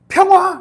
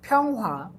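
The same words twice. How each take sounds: First: It is shouted loudly and forcefully. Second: It is said in a cute, playful way.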